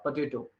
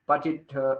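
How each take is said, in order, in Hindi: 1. अंतिम o पूरा बोला जाता है। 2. अंतिम o छोटा कर के, आधा बोला जाता है। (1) "पटेटो अच्छे से बोलना पड़ेगा" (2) "आधा आधा मतलब आधा कच्चा छोड़ नहीं सकते उसको"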